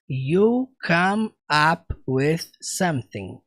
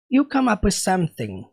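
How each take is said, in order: First: Each word is said separately and clearly. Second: The words are run together without breaks. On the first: "Quem dera ele falasse assim, né? Mas ele não fala assim" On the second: "ele junta tudo"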